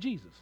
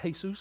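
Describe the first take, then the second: First: The name is said with an English pronunciation. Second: The name is said with a Spanish pronunciation. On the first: This is the name of the one being preached about. "instead of Jesus" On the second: "I'm glad they pronounce it Jesus"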